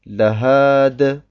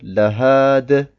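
First: The word is said alone with a stop. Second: The same.

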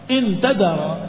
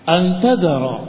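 First: The first word starts with an 'i' vowel. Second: The first word starts with an 'a' vowel. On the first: It sets a condition for the statement. "Kalau dengan kasrah" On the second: It gives the reason for the statement. "Dengan difathahkan hamzahnya, bukan inna tapi anna, ala ta'lil"

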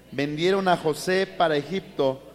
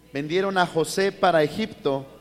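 The two takes are said the same way.

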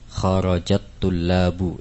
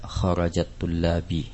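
First: The last word ends with an u vowel. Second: The last word ends with an i vowel. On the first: The speaker calls it right. "At-tullabu dibaca dengan harakat dhammah karena sebagai fa'il" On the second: The speaker calls it wrong. "Tidak boleh dibaca dengan fathah ataupun kasrah"

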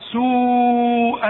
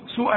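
First: The long vowel is held for several beats. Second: The long vowel is cut short. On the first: The speaker calls it right. "ده مد لا واجب لازم تمد" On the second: The speaker calls it wrong. "ما تقولش"

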